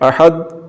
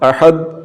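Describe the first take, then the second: Both takes have the same delivery.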